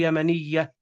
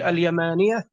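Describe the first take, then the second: First: يمنية with short a and double y, yamaniyya; doubled ya, no alif. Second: اليمانية with long aa and single y, al-yamaaniya; long alif, light ya. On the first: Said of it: "لو لم تكن فيها الألف". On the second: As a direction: stretch the alif in اليمانية and leave the ya undoubled. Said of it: "لأن فيها ألف". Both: Shown as a demonstration.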